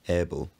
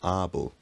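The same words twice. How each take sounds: First: The first vowel is a lowered mid vowel. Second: The first vowel is a fully open vowel. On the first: This is how it sounded in the period portrayed. "The vowel in words like able is much lower" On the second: This is how it sounded in an earlier period. "it had only recently raised from able, which was how it was pronounced in Middle English"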